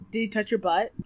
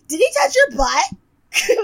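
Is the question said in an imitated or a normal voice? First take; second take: normal; imitated. First: It is said in the speaker's own normal voice. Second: It is said in a put-on imitating voice.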